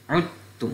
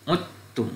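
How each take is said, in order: No difference in how they are said.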